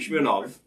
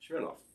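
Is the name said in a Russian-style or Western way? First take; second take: Russian-style; Western. First: The name is said closer to the original Russian. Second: The name is said in an anglicized Western way. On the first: The speaker calls it right. "Probably Smirnov is, is even more to the point" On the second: The speaker calls it wrong. "this is a very Western way of pronouncing it"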